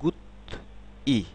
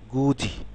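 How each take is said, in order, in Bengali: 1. প্রতিটি সিলেবল আলাদাভাবে বলা হয়, শেষে 't' থাকে। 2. সিলেবলগুলো যুক্ত, 'j' ধ্বনি দিয়ে।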